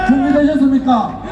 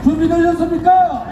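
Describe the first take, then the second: First: Calling out to the crowd; rousing question to the crowd. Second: Higher, stronger shouted repeat; roaring crowd call. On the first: Rally leader calling to the crowd. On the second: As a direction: push the call harder, higher. Rally leader repeats the call louder. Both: Real, not acted.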